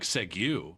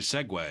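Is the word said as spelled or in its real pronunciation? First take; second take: as spelled; real pronunciation. First: The word is pronounced the way it looks. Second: The word is pronounced its real, accepted way. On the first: The speaker calls it wrong. "Looks like segue" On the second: The speaker calls it right. "but it's really segue"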